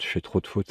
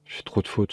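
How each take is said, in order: First: Quiet grumble. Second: Breathy whispered self-reproach; whispering. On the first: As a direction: mumble it, annoyed with yourself. Repeats complaint, voiced. (grommelé à voix basse) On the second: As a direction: whisper it to yourself in frustration. Repeats complaint, whispered. (murmuré avec agacement) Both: Real, not acted.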